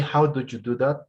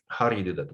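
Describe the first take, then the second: First: Each word is said separately and carefully. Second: The words are reduced and run together. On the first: It sounds like a beginner speaking. "It's a little more British or beginner, you know, uh, level" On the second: It sounds like a native speaker. "But native speakers say"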